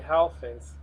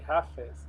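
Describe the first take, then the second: First: The f in the first word is dropped. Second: The f in the first word is pronounced. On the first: The speaker calls it wrong. "I always say Hal Face. That's so wrong" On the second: The speaker calls it right. "It should be Half Face"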